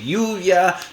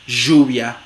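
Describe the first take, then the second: First: The consonant is a soft, vowel-like approximant. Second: The consonant is a voiced 'zh' fricative. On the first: "suele ser una aproximante" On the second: "fricativa postalveolar sonora"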